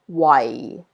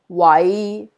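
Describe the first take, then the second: First: It is said with Cantonese tone four. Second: It is said with Cantonese tone five.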